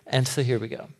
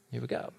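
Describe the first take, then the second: First: Said in the usual way. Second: Much softer knowing repeat of Here we go; muttered aside. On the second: Real, not acted. Preacher muttering to congregation, much softer. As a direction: drop it under the breath.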